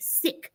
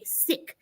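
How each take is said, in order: First: The vowel is short, like 'sick'. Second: The same.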